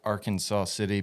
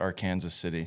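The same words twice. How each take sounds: First: It uses the usual, non-local pronunciation of the name. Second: It uses the local pronunciation of the name.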